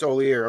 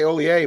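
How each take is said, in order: First: The R in the name is hard. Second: The R in the name is soft. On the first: The speaker calls it right. "but it's Olier. Okay. Hard R" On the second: The speaker calls it wrong. "I say Olier"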